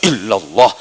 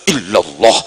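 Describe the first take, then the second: The two takes are said the same way.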